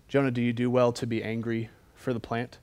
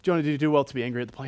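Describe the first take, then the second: First: Measured, deliberate question as God; God's loaded question. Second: Rattled-off question as God; rapid recap. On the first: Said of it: "talks to you like that". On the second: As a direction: race through the question as a quick setup. Recaps God's question before Jonah's outburst. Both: Acted.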